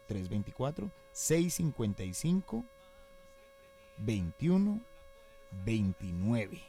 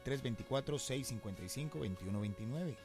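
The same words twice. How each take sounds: First: The number is read very slowly. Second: The number is read at normal speed.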